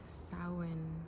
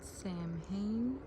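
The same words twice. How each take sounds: First: It is said with a traditional Celtic pronunciation. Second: It is said with a common American pronunciation. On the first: "The Celts pronounce it" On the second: "Americans usually pronounce it"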